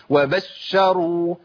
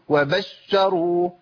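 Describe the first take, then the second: No difference in how they are said.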